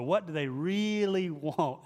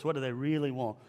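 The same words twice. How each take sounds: First: Slow down and stretch REALLY; emphatic, drawn-out REALLY; stress on REALLY. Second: Said in the usual way. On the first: Retold or imitated. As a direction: imitate the mentor, dragging out REALLY. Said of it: "He'd always emphasize really". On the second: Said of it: "I hear his voice".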